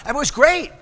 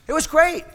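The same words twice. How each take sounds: The two takes are said the same way.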